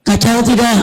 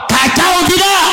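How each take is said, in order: First: Said in the usual way. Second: High-pitched call to the crowd; rally-style shouted question; rousing shout. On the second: Real, not acted. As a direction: demand a response from the congregation. Repeats louder question to rouse crowd.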